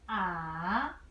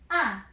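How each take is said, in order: First: The pitch starts low, dips, then rises. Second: The pitch falls sharply from high to low. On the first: "Third tone. You start from low position"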